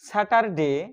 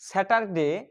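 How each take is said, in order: Both takes have the same delivery.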